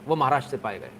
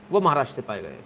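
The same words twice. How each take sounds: The two takes are said the same way.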